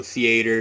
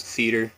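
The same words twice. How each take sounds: First: "theater" with an ay in the middle; thee-ay-ter. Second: Said in the usual way. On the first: Shown as a demonstration. Vlogger showing viewers her local way of saying theater. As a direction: sound the a in "theater". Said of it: "we do pronounce the A in there". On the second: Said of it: "A lot of people is theater".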